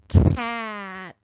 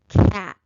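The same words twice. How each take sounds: First: The sounds are said faster, closer together. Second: The sounds are blended quickly into one word. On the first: "again a little faster" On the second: "one more time, a little faster"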